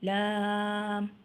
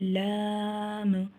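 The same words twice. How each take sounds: First: The vowel is long and the m ends smoothly. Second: The final m ends with an echoing bounce. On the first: The speaker calls it right. "तीन अल्फ के बराबर लंबा करेंगे" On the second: The speaker calls it wrong. "मीम पे कलकला कर लिया आखिर में"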